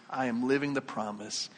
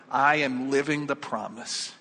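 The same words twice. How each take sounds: First: Softer, settled repeat; quiet affirmation. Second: Slow, full-voiced affirmation; firm declaration. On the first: Acted. Believer repeats the declaration, quietly assured. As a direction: let the conviction settle, voice dropping. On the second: Believer points back to baptism, firm declaration. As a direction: state it with steady conviction.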